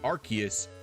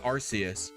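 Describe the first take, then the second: First: The first syllable does not sound like 'arse'. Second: The first syllable sounds like the word 'arse'. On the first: This is the changed official pronunciation. "they decided to change it to Arceus" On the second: This is the older official pronunciation. "its pronunciation as Arceus before ... sounding like Arse"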